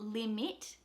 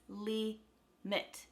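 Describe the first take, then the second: First: The second vowel is a full short I. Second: The second vowel is a reduced schwa. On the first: The speaker calls it wrong. "it's not limit" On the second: The speaker calls it right. "it's limit"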